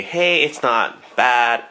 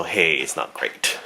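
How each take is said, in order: First: Slow, mildly pleased "not bad"; upbeat shrug. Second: Slow, softer, let-down "not great"; deflated shrug. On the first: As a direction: draw it out with a light lift. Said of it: "I'll give it a". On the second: Pretend. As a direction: drop it low and quiet. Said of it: "and it's also".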